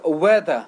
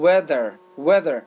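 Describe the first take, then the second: First: "weather" with no final R, "wetha"; British "weather", ending in an open "a"; British pronunciation. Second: "weather" with the final R sounded; American "weather", R-coloured last syllable; American pronunciation. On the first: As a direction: drop the R at the end of "weather". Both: Shown as a demonstration.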